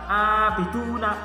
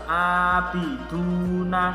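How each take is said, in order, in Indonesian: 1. Vokal sebelum huruf n itu pendek. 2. Vokal sebelum huruf n itu dibaca dua ketukan. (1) "nggak boleh dibaca abiduna" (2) "Harus abiduna. Dua ketukan ya"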